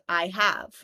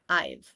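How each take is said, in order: First: It is said as two full words. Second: It is contracted into one syllable.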